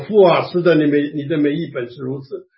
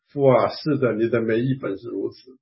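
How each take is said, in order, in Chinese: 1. 中等音量，稍微提高一点。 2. 说得很轻，很小声。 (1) "那我就声音稍微大一点" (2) "我只好呢小小声说"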